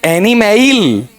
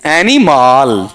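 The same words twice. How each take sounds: First: एनिमल high and slow as "eni-MAIL"; एनिमल with a long ai in the last syllable; second mispronunciation. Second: एनिमल ending in a long "MAAL"; एनिमल with a stretched aa, falling; deliberate mispronunciation. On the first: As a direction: stretch the end of एनिमल into "male". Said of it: "फिर अगला बताओ क्या है". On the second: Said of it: "मैं इसका उच्चारण कर रहा हूं". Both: Shown as a demonstration.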